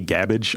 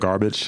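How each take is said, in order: First: The first syllable is said without an r sound. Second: The first syllable is said with an r sound. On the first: "I like to say it just like that" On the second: "instead of garbage"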